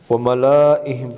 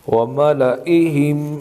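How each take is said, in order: First: The la vowel is stretched long. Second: The la vowel is kept short. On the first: The speaker calls it wrong. "पढ़ना गलत है" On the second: The speaker calls it right. "पढ़ना ठीक है"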